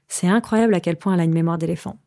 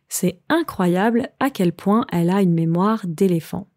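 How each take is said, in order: First: It is said at a faster pace. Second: It is said at a normal, careful pace.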